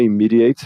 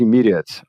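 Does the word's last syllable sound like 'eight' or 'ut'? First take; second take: eight; ut. First: The final syllable sounds like 'eight'. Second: The final syllable sounds like 'ut'. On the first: The speaker calls it wrong. "não é immediate, um erro bem comum" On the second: The speaker calls it right. "o até tem som de ut"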